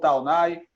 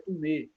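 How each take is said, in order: First: The name is said with a Brazilian pronunciation. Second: The name is said with a French pronunciation. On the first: This is how the name is said locally. "como a gente mora no Brasil e aqui na Bahia, então ficou Taunay" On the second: This is the original pronunciation of the name. "A pronúncia correta ... É Tumé, porque é um nome francês"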